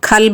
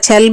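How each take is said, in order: First: The word begins with a 'kh' sound. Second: The word begins with a 'ch' sound. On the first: This is how other regions say it. "కొన్ని చోట్ల ఖల్బ్ అని అంటారు" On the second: This is how some regions say it. "కొన్ని చోట్ల చల్బ్ అని అంటారు"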